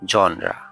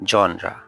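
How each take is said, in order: The two takes are said the same way.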